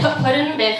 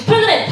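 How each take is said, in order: First: Flustered compliance. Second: High-pitched mock official order; barking TSA agent. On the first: Retold or imitated. Teen traveler following the agent's order, flustered echo. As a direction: repeat it while scrambling to obey. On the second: Airport agent directing the security line, mock barking. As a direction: call out the rule sharply. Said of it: "you know how they're like".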